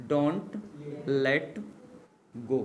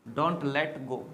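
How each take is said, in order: First: Don't, pause, let, pause, go, each word set apart; word by word dictation. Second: Said in the usual way. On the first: Shown as a demonstration. Teacher spelling out don't let go for students, word by word. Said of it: "don't let go said again in one breath". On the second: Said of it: "same words dictated one by one before".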